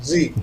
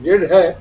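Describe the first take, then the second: First: The letter is named ending in an ee sound. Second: The letter is named ending in a d sound. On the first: "American English में जेड का उच्चारण जी की तरह होता है" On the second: "Pankaj sir ने ऐसा कहा कि ये जेड है"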